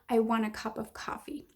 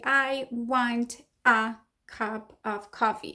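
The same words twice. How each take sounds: First: Small unstressed words are reduced and weak. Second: Every word gets full, equal stress. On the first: The speaker calls it right. "You say" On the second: The speaker calls it wrong. "You don't say, ... with a specific stress"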